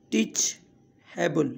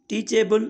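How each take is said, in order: First: ٽيچيبل slowly, a long pause after "teach"; broken into parts. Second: Said in the usual way. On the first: Shown as a demonstration. Teacher repeating the word for learners, slowly in two parts. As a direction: split ٽيچيبل into "teach" and "able". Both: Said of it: "ته ان لاءِ توهان هن جا syllable ٺاهيو".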